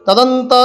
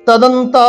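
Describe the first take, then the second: Both takes have the same delivery.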